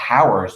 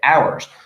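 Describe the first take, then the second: First: The word begins with an audible h sound. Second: The word begins with a vowel, h silent. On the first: The speaker calls it wrong. "You don't say hours" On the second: The speaker calls it right. "it's kind of a silent word"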